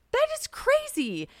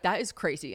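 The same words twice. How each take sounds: First: Very high, slow, amazed squeal; re-enacted freak-out, pitched way up; excited squeal. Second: Said in the usual way. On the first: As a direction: stretch it out in high-pitched astonishment. Her excited echo of his reply.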